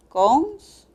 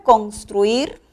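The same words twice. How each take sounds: First: "Construir" split in two, a long pause between; syllable by syllable. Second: Said in the usual way. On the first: Shown as a demonstration. Teacher showing the two syllables, spaced out syllable by syllable. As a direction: say "Construir" as cons, pause, truir. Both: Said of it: "tiene dos sílabas".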